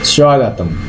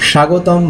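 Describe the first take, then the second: First: It is said with the Sanskrit pronunciation. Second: It is said with the Bengali pronunciation. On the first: "সংস্কৃতে উচ্চারণটা হয়" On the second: "বাংলায়"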